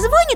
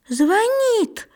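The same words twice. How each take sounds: First: The stress falls on the first syllable. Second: The stress falls on the second syllable. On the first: The speaker calls it wrong. "Вот сразу и ошибочка у тебя в речи" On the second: The speaker calls it right. "здесь ударение на «и»"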